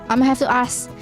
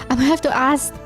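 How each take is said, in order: The two takes are said the same way.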